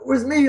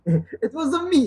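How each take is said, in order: First: It is said in a plain, unaccented voice. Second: It is said in an exaggerated Italian accent. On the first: "like Vince did" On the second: "It is horrible, like Italian accent"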